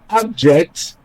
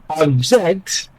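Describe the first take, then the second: First: The stress is on the first syllable. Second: The stress is on the second syllable. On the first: It is used as a noun. "as a noun" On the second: It is used as a verb. "as a verb"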